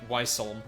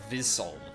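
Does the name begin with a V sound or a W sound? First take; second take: W sound; V sound. First: The name begins with a W sound. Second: The name begins with a V sound. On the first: The speaker calls it wrong. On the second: The speaker calls it right.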